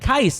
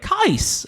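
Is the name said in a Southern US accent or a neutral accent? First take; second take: neutral; Southern. First: It is said without a Southern drawl. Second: It is said with a Southern drawl. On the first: This is how the name's owner says it. The speaker calls it right. "I'd be like" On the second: This is how other people said the name. The speaker calls it wrong. "And they'd be like, / say Qais with a southern accent"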